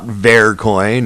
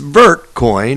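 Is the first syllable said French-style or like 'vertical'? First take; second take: French; vertical. First: The first syllable is said the French way. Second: The first syllable sounds like 'vertical'. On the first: The speaker calls it wrong. "as in the French pronunciation" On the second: The speaker calls it right. "as in vertical"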